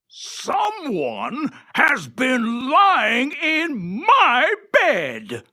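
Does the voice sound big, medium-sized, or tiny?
big. It is said in a big, gruff voice.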